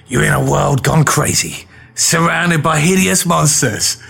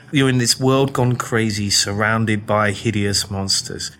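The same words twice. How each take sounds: First: Epic trailer read, hideous stretched slow; movie trailer voice. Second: Nervous English bloke memorising his pitch on the street, slow mutter; muttered rehearsal. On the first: Shown as a demonstration. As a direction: sell it like a blockbuster trailer. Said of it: "It's gotta be like this". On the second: Retold or imitated. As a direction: rehearse it under your breath, slowly. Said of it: "reading from this script ... going".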